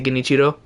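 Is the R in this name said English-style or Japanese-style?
Japanese-style. The R is said with a Japanese-style tap. Other people say the name this way. "people pronounce the R's like with the with a typical like Japanese"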